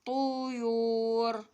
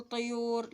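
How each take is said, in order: First: طيور drawn out as "tuu-yuur", with u; damma vowel demo. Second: طيور said quickly as "tayur", with an a; wrong vowel demo. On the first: Teacher correcting the vowel for children, طيور as slow "tuyuur". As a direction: say طيور very slowly with u in both syllables. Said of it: "لأن حاطين لي ضمة". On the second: Teacher showing children what not to say, طيور as "tayur". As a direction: say طيور with a short a after the first consonant. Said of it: "هنا أنا ما أقول طيور". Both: Shown as a demonstration.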